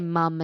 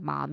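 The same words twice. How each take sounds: First: "mum" said with a short uh vowel, like "mum" in "hum"; British mum. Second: Said in the usual way. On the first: Shown as a demonstration. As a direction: say "mum" rhyming with "gum", the British way. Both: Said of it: "they say mum instead of mom".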